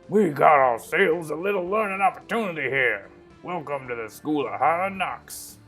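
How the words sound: It is said in a put-on character voice.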